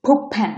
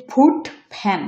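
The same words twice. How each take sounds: First: ফুট said "pup" before fan; assimilated T. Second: Said in the usual way. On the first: Shown as a demonstration. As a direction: turn the t ending ফুট into p. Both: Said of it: "এটা উচ্চারণ হবে".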